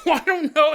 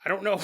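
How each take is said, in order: First: Higher and louder through a laugh. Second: Said in the usual way. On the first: Real, not acted. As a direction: crack up while repeating it. Repeats the line, laughing.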